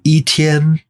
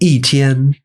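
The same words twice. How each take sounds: First: The first syllable has a high level tone. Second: The first syllable has a falling tone. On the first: The speaker calls it wrong. "you wouldn't say" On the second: The speaker calls it right. "it becomes a fourth tone"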